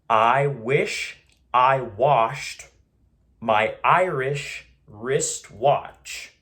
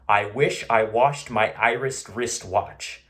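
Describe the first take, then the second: First: It is said slowly, broken into separate parts. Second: It is said very quickly but still clearly. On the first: "we're gonna move into the slower portion. ... I'm gonna break it up" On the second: "as fast as I can, but still enunciate"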